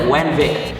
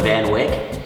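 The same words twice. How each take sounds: First: The V and W sounds are swapped. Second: The V and W sounds are said normally. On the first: The speaker calls it wrong. "Indians always like mix the V and the W" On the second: The speaker calls it right. "there's like an expressway called the Van Wyck"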